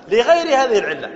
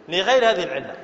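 First: لغير هذه العلة said loud with a punch on لغير; stressed answer. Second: Said in the usual way. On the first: Shown as a demonstration. Teacher stresses لغير هذه العلة loudly to the class. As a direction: hammer the word لغير out loud. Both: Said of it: "لماذا سكنت الباء هنا".

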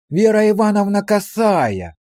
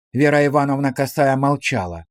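First: Feigned surprise. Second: Said in the usual way. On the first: A narrator's reading. Policeman discovers the woman behind the curtain, falsely surprised. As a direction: act amazed to find her here, voice raised. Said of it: "фальшиво удивился он".

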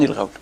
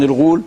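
First: الغول said with an "aw" glide; fatha in الغول. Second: Rounded long u in الغول; damma in الغول. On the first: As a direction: pronounce الغول al-ghawl. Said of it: "بفتح الغين". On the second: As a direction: pronounce الغول al-ghūl. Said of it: "غول بضم الغين". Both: Shown as a demonstration.

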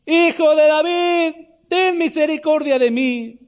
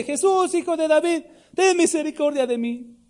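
First: High, slow, drawn-out cry; full-voiced high wail of a desperate beggar; crying out harder. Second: High, held-back mock shout; imitated powerful shout. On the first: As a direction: stretch every word in an insistent plea for mercy. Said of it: "él clamaba mucho más". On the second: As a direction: call out high like a beggar pleading over a crowd. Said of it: "tenía que gritar con voz potente".

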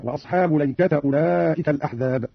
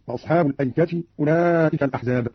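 First: "الأيكة" as laykata, no hamza; fatha on lam, ta. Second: Said in the usual way. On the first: Shown as a demonstration. Teacher showing Qalun, "الأيكة" read laykata with two fathas. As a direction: run "وأصحاب الأيكة" together as ashaabu laykata. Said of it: "قرأ قالون بفتح اللام". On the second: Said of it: "قرأ قالون".

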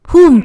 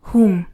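First: "Whom?" blurted high and loud; loud joking whom. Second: Said in the usual way. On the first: Real, not acted. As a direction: shout the "Whom?" as a joke. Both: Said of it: "Sorry, sorry".

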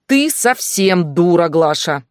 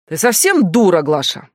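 First: «ты совсем дура» медленно, громко, «ты» выделено; отчеканить медленно, ударив «ты»; с нажимом на «ты». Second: Громкий возмущённый вопрос; сорвись на неё криком. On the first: Стас повторяет с нажимом. (начальник поправляет себя, с нажимом) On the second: Стас кричит на Глашу. (начальник кричит на Глашу, возмущённо) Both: Acted.

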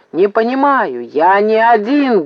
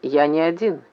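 First: Insistent acted shout; barking. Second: Said in the usual way. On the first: A narrator's reading. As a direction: bark it back, stretching the words. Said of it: "гаркнул Максим". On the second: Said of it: "крикнул Максим".

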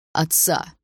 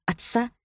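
First: Said in the usual way. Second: High, incredulous echo question; disgusted. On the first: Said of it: "подсказал Андрей". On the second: A narrator's reading. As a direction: repeat the word in revulsion, pitch jumping up. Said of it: "Меня просто перекосило от отвращения".

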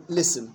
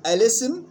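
First: الاسم begun on lam, "lism"; second way. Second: الاسم begun with hamza, "alism"; first way. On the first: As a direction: drop the opening vowel of الاسم. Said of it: "أو". (الاسم مبدوءة باللام دون همزة) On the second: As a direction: keep the opening a of الاسم. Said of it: "يجوز فيها وجهان". (الاسم مبدوءة بهمزة مفتوحة) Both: Shown as a demonstration.

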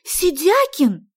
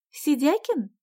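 First: High, loud, drawn-out Сидякин; indignant exclamation. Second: Сидякин said high as a tentative query; questioning call. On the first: Sonya lost for words at Vasya, indignant "Сидякин!". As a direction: cry out Сидякин in outrage. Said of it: "От возмущения". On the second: Sonya sounding out her friend, "Сидякин?" as a question. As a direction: ask Сидякин as an opening question, higher. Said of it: "спросила Соня". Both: A narrator's reading.

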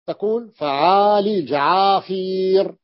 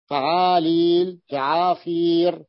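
First: فعالل جعافير spoken slowly, each syllable clear; slow model form. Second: فعالل جعافير said very slowly, syllable by syllable; even slower repeat. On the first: Teacher modelling جعافير slowly for the class. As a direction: spell out جعافير slowly with the long ي. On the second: Teacher repeating جعافير very slowly to the class. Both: Shown as a demonstration. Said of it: "قال جعافير".

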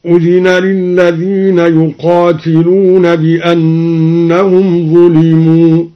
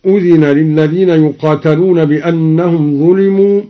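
First: Slow chanted recitation, يقاتلون as "yuqātilūna"; al-Duri recitation. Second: Said in the usual way. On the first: Shown as a demonstration. Teacher demonstrating al-Duri's reading, slow chant with "ti" in يقاتلون. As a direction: chant it slowly with kasra on the ت of يقاتلون. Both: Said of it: "قرأ الدوري بكسر التاء يقاتلون".

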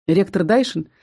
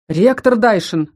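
First: Said in the usual way. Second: Slow, firm warning «Ректор Дайшин»; stern. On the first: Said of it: "строго произнёс". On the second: Acted. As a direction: rein him in sternly and slowly. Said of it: "строго произнёс из угла высший демон". (строго, с упрёком)

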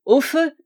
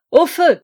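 First: Higher, louder call of fire; a first test cry of fire; shouting fire. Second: Full-throated, much louder high yell; shouting fire in the smoke-filled corridor. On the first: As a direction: call out the alarm. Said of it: "vous demander à tous de crier". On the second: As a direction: raise the alarm with all your voice. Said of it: "Nous écriâmes nous tous". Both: Acted.

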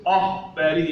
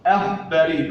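First: أخباري with dark backed opening "a"; wrongly heavy hamza. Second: أخباري with thin front opening "a"; light hamza. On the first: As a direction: thicken the first vowel of أخباري. (أخباري بتفخيم الهمزة خطأً) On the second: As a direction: keep the first vowel of أخباري light. (أخباري بهمزة مرققة) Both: Shown as a demonstration. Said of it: "الهمزة مرققة".

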